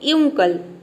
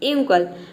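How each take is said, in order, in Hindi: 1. शब्द 'yoo' ध्वनि से शुरू होता है। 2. शब्द 'yoo' ध्वनि से शुरू होता है।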